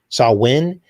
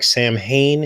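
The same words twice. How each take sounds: First: The word is said the traditional way. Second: The word is said as it is spelled. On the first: "is how you pronounce it" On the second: "is the way it's spelled"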